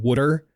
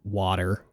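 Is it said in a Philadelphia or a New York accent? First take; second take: Philadelphia; New York. First: It is said in a Philadelphia accent. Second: It is said in a New York accent.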